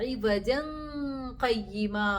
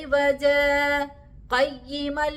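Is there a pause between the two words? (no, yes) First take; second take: no; yes. First: The two words are joined without a pause. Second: A brief pause separates the two words. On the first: The second word seems to describe the first. The speaker calls it wrong. "ഇവജൻ ഖയ്യിമ എന്ന് പാരായണം ചെയ്യാൻ പാടില്ല" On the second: The two words are separate descriptions. The speaker calls it right. "ഇങ്ങനെ ഓതൽ അവിടെ വാജിബാണ്"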